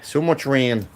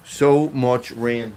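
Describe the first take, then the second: First: Said in the usual way. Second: "So much rain" stretched out very slowly, each word long; drawn-out lament. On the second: Real, not acted. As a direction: drag out "So much rain" like a weary sigh at the weather. Repeats complaint about rain.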